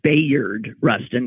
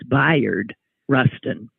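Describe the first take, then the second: First: Bayard is pronounced the way it is spelled. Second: Bayard is pronounced differently from its spelling. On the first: The speaker calls it wrong. "I always pronounce it Bayard Rustin because that's how it's spelled" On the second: The speaker calls it right. "the film makes clear that that is not correct. It's Bayard Rustin"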